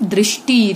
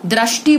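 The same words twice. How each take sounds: First: Said in the usual way. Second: दृष्टि said as "drashti"; popular mispronunciation. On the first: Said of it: "क्या होता है शुद्ध रूप". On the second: Shown as a demonstration. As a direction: use "ra" for "ri" in दृष्टि. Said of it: "दृष्टि बोलते हैं लोग".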